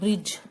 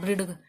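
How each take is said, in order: First: The d is silent before the final sound. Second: A d sound is spoken before the end. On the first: The speaker calls it right. "ब्रिज बोलते हैं" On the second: The speaker calls it wrong. "मैं इसको ब्रिडग नहीं बोलती"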